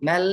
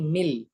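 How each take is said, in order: First: The vowel is an open 'e' sound. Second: The vowel is a thin 'i' sound. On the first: The speaker calls it wrong. "मैल नहीं" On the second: The speaker calls it right. "M आई L"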